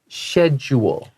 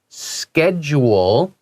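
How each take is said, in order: First: The word begins with an sh sound. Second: The word begins with an sk sound. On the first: This is a more European way of saying it. "some people, usually more European, say schedule" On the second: This is the American way of saying it. "you'll hear Americans say schedule. ... they say sk"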